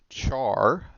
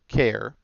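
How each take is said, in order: First: The word rhymes with car. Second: The word rhymes with care. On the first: It follows the look of the spelling. "this can be pronounced char" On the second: It is short for character. "I prefer care"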